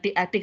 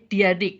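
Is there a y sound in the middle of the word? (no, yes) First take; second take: no; yes. First: No y sound is heard in the middle. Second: A nasal y sound is heard in the middle. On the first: The speaker calls it wrong. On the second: The speaker calls it right. "pakai Y sengau di tengahnya"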